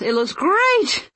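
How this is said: The voice jumps to a very high pitch.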